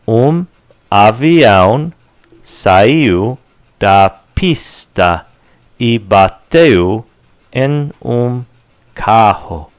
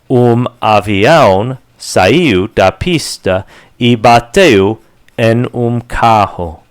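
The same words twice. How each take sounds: First: The sentence is spoken slowly. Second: The sentence is spoken at moderate speed. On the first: "Let's go slower" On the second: "A little faster"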